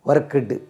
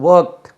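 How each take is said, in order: First: The ending is a separate syllable with a vowel. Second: The ending is a plain t with no vowel. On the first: The speaker calls it wrong. "ஒர்க்குடு அப்படி கிடையாது" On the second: The speaker calls it right. "அது ஒர்க்ட்"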